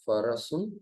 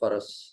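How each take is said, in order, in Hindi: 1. शब्द के अंत में 'un' ध्वनि आती है। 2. शब्द के अंत में 'un' ध्वनि नहीं आती। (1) "यहाँ पर हुआ ये फरसुन" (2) "पढ़ने का जो तरीका होगा, वो होगा फरस"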